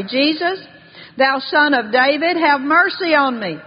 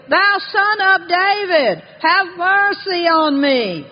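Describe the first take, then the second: First: Raised, measured plea for mercy; a preacher lightly voicing a beggar's call; mild crying out. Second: High, slow, insistent cry; crying out harder. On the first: Blind Bartimaeus calls to Jesus for mercy, mildly crying out. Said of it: "he began to cry out and say". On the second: Retold or imitated. Beggar refuses to be hushed by the crowd, crying all the more. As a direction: draw out a raised, pleading call for mercy. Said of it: "he cried all the more a great deal".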